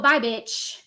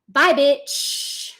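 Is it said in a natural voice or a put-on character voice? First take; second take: natural; character voice. First: It is said in the speaker's natural voice. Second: It is said in a put-on creepy character voice.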